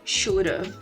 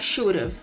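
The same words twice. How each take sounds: First: Have is shortened to a v sound. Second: Have is shortened to a v sound.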